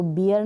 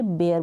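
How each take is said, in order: First: बियर with a long ee, "bee-er"; mispronounced bear. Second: बेयर with an "ay" vowel, "bay-er"; correct pronunciation of bear. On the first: Teacher rules out this reading of bear, mispronounced bear. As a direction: say बियर like the drink beer. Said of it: "बियर नहीं बोलेंगे". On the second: Teacher models the right reading of bear, correct pronunciation. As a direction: say बेयर with the ए sound. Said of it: "बेयर बोलेंगे". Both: Shown as a demonstration.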